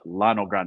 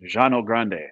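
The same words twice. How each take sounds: First: The double L sounds like an l. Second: The double L sounds like a y. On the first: The speaker calls it wrong. "not Llano Grande" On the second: The speaker calls it right. "Two L's in Spanish is pronounced Jean, like Llano Grande"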